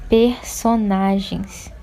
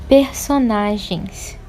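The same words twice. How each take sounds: Both takes have the same delivery.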